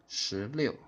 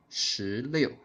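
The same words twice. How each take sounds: The two takes are said the same way.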